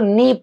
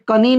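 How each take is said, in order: First: The k is silent, starting with n. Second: The k is pronounced before the n. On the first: The speaker calls it right. "इसको नी पढ़ते हैं" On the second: The speaker calls it wrong. "यहाँ पे कनी नहीं पढ़ेंगे"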